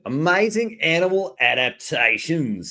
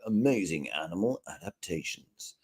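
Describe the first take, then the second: First: It is said in an Australian accent. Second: It is said in his normal voice.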